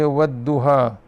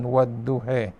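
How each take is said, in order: First: The final vowel is an open 'a' sound. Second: The final vowel is fronted toward an 'e' sound. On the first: "Kita baca" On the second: "secara imalah"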